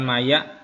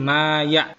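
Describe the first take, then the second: First: The first vowel is short. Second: The first vowel is held long. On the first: The speaker calls it wrong. "tadi dibaca tidak lama" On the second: The speaker calls it right. "harusnya ini ada dua harokat di sini"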